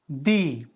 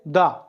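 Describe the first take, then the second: First: The vowel is a long 'ee'. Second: The vowel is a short, weak 'uh'. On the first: It comes before a word starting with a vowel sound. "starting with vowel sound and before that there is the" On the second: It comes before a word starting with a consonant sound. "A word beginning with a consonant sound. ... It's pronounced as a da"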